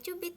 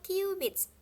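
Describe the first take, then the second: First: It is read like the Indonesian word cubit. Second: It is read like the English word cubits. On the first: The speaker calls it wrong. "jangan dibaca cubit ya" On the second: The speaker calls it right. "dibacanya cubits"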